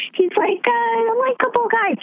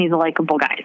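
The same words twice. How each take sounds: First: Much higher, slow, sarcastic lilt; mock likable-guy tone. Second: Said in the usual way. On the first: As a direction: parody the fans' view. Mocking voter view, then restated plainly.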